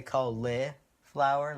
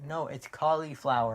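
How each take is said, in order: First: "cauliflower" as CAUL-eh-flower; eh in the middle. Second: "cauliflower" as CAH-lee-flower; girlfriend's pronunciation. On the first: Shown as a demonstration. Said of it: "like a eh". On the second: Retold or imitated. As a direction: correct with a clear lee in "cauliflower". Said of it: "There is no li in the middle".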